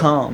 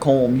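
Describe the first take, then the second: First: The name rhymes with calm. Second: The name rhymes with comb. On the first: The speaker calls it right. "Calm, not comb" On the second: The speaker calls it wrong. "You said comb"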